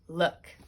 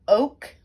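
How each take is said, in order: First: The vowel is a short uh sound. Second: The vowel is a long oh sound. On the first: The speaker calls it right. "Two O's in the middle say uh" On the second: The speaker calls it wrong. "We don't say oh. We don't have the long sound"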